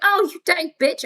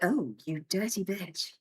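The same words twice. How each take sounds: First: It sounds happy and pleased. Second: It sounds sad and upset.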